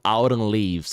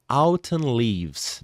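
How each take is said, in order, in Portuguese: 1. É dito com sotaque americano. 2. É dito com sotaque não americano.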